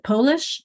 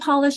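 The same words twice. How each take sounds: First: The first syllable ends on the O vowel. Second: The first syllable ends after the L sound. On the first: "dividing after the O" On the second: "dividing after L"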